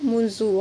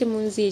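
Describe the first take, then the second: First: The word ends with an u vowel. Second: The word ends with an i vowel. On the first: The speaker calls it right. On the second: The speaker calls it wrong.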